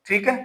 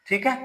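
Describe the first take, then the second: No difference in how they are said.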